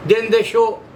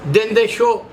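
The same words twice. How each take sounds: The two takes are said the same way.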